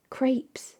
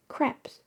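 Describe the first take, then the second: First: "Crepes" with an ay vowel, like "crayps", softly; long A pronunciation. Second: "Crepes" with a short eh, like "creps"; short E pronunciation. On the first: Streamer testing the other way to say it, "Crepes" with a long A. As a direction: say "Crepes" to rhyme with "grapes". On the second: Streamer testing how to say it, "Crepes" with a short E. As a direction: say "Crepes" to rhyme with "steps", softly. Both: Shown as a demonstration. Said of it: "It's with an A sound?".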